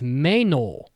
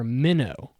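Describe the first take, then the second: First: The first vowel sounds like in 'day'. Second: The first vowel sounds like in 'bit'. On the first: The speaker calls it right. "the girl's name is" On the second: The speaker calls it wrong. "half of the characters say it incorrectly"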